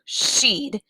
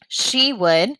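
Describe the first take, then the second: First: The two words are contracted into one syllable. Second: Both words are said in full. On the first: "changes to she'd"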